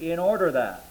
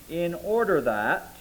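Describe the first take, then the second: First: Said in the usual way. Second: "in order that" slowed, each word weighed; stress on in order that. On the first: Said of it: "is actually to be translated". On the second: Shown as a demonstration. Preacher to congregation, stressing "in order that" slowly. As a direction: lean on "order" and take "in order that" slowly. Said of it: "we are to give diligence".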